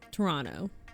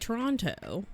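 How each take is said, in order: First: The second T is dropped. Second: The second T is clearly pronounced. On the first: The speaker is a local. The speaker calls it right. "You just kind of like throw it out there" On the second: The speaker is an outsider. The speaker calls it wrong. "If you say Toronto, that's a tourist"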